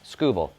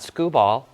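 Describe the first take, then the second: First: The name does not end like screwball. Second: The name ends like the word screwball. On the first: The speaker calls it right. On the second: The speaker calls it wrong.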